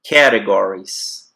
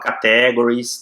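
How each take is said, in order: First: The stress falls on the first syllable. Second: The stress falls on a later syllable. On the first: The speaker calls it right. "É no cat" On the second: The speaker calls it wrong. "Muita gente fala categories, tá errado"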